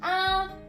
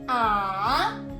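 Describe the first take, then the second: First: It is said with the first tone. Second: It is said with the third tone. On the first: "So the first tone"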